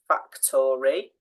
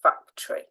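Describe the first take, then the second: First: The middle O vowel is clearly sounded. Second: The middle O vowel is dropped. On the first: The speaker calls it wrong. "we don't say factory" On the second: The speaker calls it right. "we say factory"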